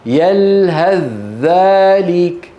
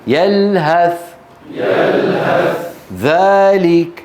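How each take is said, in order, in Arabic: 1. يندمج th في صوت dh مشدد. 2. يُنطق صوت th واضحًا ومنفصلًا. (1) "فإذا وصلناهما تتحول الثاء إلى ذال، ويكون النطق بذال مشددة" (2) "إذا فصلناهما عن بعض الثاء تظهر"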